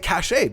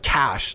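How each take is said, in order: First: The word gets a regional western Canadian pronunciation. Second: The word gets its common, widely listed pronunciation. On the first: This is how people say it where the speaker lives. "I would say cache because in Western Alberta" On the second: This is how most people and the internet say it. "instead of cache"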